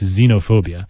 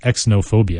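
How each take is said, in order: First: The word begins with a 'z' sound. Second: The word begins with an 'eks' sound. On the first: The speaker calls it right. "with a Z sound" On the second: The speaker calls it wrong. "it's not like exo"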